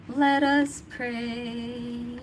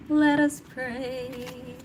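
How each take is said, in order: First: Slow, drawn-out preacher intoning; solemn church prayer call. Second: Slow chanted prayer call, like a hymn; sung church chant. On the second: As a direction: sing it out like a choir opening. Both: Retold or imitated. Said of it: "That's in church".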